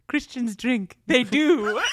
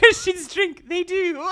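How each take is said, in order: First: Made-up emotional woman's voice, slightly raised; Vicky. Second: Very high, squeezed mock-emotional voice; Vicky. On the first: Retold or imitated. Host imitates Vicky answering a viewer question, mock-emotional voice. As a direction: put on a high, insistent little protest. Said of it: "this voice that you've created for Vicky". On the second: Host exaggerates Vicky's emotional defence, very high put-on voice. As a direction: pitch it way up, half laughing, tearfully insistent. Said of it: "She gets all quiet like this".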